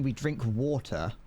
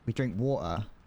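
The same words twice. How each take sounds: First: The T in water is clearly pronounced. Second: The T in water is dropped. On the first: "Instead of going" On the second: "We don't pronounce the T in most words"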